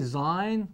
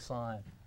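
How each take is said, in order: First: The word begins with a buzzing z sound. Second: The word begins with a hissing s sound. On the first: This is how most people say it. The speaker calls it wrong. "most people say Zine" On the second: This is how it is actually pronounced. The speaker calls it right. "it's actually pronounced with the S sound, just like it looks"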